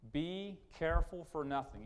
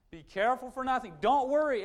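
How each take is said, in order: First: Said in the usual way. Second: Louder, higher, commanding. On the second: Shown as a demonstration. Pastor commanding the congregation, loud and high. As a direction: bark it as an order. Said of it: "It's a command".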